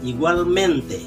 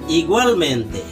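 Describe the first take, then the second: First: The stress is on the syllable 'men'. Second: The stress is not on the syllable 'men'. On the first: The speaker calls it right. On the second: The speaker calls it wrong.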